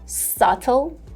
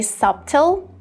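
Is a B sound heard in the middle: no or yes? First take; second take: no; yes. First: No B sound is pronounced in the middle. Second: A B sound is pronounced in the middle. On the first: The speaker calls it right. "in the British version" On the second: The speaker calls it wrong. "that would be wrong because B here is silent"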